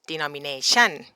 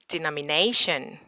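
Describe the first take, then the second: First: The last syllable is stressed with a high rise. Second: The stress is on the fourth syllable, 'na'. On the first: The speaker calls it wrong. "not denomination" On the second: The speaker calls it right. "the stress is not at the chun, it's at the nay"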